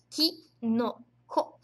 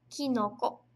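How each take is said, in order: First: Very slow kinoko, each syllable ki-no-ko held; teacher modelling kinoko slowly; model word. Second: Said in the usual way. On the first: Shown as a demonstration. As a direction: stretch kinoko out slowly for the class. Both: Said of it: "Kinoko significa cogumelo".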